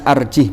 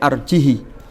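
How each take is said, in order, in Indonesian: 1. Huruf h terakhir tidak diikuti vokal. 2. Huruf h terakhir diikuti vokal i pendek. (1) "bi iskanil ha" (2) "berarti pendek arjihi"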